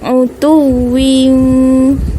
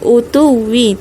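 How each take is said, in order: First: The word ends with an n sound. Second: The word ends on a vowel. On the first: The speaker calls it right. "tapi utuwin" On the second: The speaker calls it wrong. "bukan utuwi"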